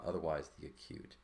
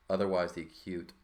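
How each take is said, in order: First: Said in the usual way. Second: "otherwise" said louder, with the weight on the start of the word; teacher raises voice to stress "otherwise"; louder read. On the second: Shown as a demonstration. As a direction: call out "otherwise the acute" over the class.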